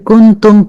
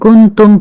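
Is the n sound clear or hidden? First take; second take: clear; clear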